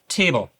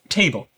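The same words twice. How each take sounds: First: It is said in a Northern Irish accent. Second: It is said in a neutral accent. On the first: "In Northern Ireland, you would say" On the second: "Examples of sharp T"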